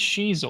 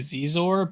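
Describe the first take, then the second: First: The name begins with a 'sh' sound. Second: The name begins with a 'z' sound. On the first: The speaker calls it right. "it is Shizor... the X is a S H" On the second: The speaker calls it wrong. "I always say Zizor"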